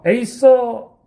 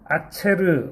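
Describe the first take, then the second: First: The word is said with an 's' sound. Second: The word is said with a 'ch' sound. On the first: The speaker calls it wrong. "영어식으로" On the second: The speaker calls it right. "아체르 이렇게 읽습니다"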